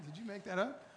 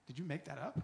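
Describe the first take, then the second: First: Laughing through the question, pitched up; laughing disbelief. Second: Said in the usual way. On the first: Retold or imitated. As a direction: ask it again, cracking up. Laughs while repeating the question.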